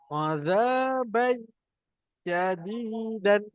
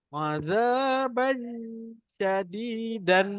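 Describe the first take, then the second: Both takes have the same delivery.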